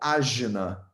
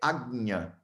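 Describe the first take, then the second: First: The middle cluster sounds like 'dj'. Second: The middle cluster sounds like 'gny'. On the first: The speaker calls it wrong. "vocês falam ajna" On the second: The speaker calls it right. "O nome dele não é ajna, é agnya"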